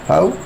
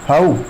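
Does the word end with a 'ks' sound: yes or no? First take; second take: no; no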